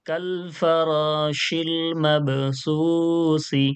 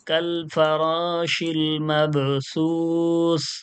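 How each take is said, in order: First: The last word ends on an added vowel. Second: The last word ends on a consonant. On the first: The reader continues without stopping. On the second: The reader stops at the end of the verse.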